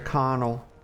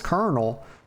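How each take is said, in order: First: The word is said without any R sound. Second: The word is said with an R sound. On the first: The speaker calls it right. "That's how I like to pronounce this" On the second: The speaker calls it wrong. "A lot of people call this Colonel, but there's no R in it"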